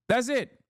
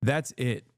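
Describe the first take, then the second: First: That's it, pitched way up; high-pitched repeat. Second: Said in the usual way. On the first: Real, not acted. Commentator hammering home why comedians fail, high-pitched repeat.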